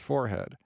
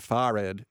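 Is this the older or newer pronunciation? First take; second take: newer; older. First: It is said the newer, common way. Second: It is said the older, once-standard way. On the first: "instead of forehead" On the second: "forehead instead of"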